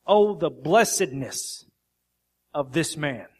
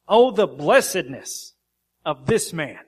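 First: Slow, stressed "Oh, the blessedness"; emphatic reading. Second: "Oh" and "blessedness" punched loud and slow; very emphatic. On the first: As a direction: lean on "Oh" and "blessedness", unhurried. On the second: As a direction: proclaim "Oh, the blessedness" with full force, slowly. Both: Shown as a demonstration. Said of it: "Very emphatic".

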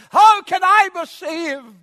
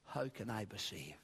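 First: Loud, high, drawn-out cry; impassioned shouted question. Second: Low, hushed question to oneself; quiet, private wondering; inward questioning. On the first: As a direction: cry it out slowly at full preaching force. Acts someone asking aloud. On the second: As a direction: ask it softly, as if within your own soul. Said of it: "in your own soul". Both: Acted.

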